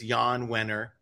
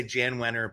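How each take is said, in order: First: "Jan" with a Y sound, like Yahn. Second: "Jan" with a J sound, as in January; Jan with English J. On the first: Host correcting the name, "Jan" said as Yahn. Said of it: "I wanna say Jan Wenner, but". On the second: Host showing the tempting wrong name, "Jan" with J sound. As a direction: say "Jan" as it is spelled, hard J. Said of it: "but it's Jan Wenner". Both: Shown as a demonstration.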